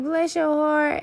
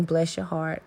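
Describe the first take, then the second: First: Sugary mock-sweet Southern blessing; sarcastic Southern Belle. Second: Sincere blessing. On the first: Mocking the people she dislikes, sugary Southern Belle sweetness. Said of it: "that's code for, you know, Southern Belle, fuck you". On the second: Shown as a demonstration. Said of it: "there's some times when I do mean".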